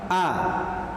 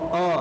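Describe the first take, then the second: First: The vowel is thin and open, like a. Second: The vowel is thick and rounded, like o. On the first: The speaker calls it right. "Yang tepat a" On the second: The speaker calls it wrong. "o itu tidak tepat"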